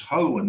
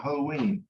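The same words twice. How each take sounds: First: "hoen" with a short, reduced E before the N. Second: "hoen" with a long ee, like "ho-ween". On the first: Teacher contrasts adjective with adverb, short E. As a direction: say "hoen" ending in "un", no long ee. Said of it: "pronounce it with the shorty sound". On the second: Teacher shows the form not meant here, long E. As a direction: stretch the E of "hoen" into ee. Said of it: "not hoen". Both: Shown as a demonstration.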